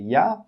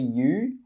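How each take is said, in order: First: The word 'you' is reduced to 'ya'. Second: The word 'you' is pronounced in full. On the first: The speaker calls it right. "we say ya" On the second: The speaker calls it wrong. "we don't say you"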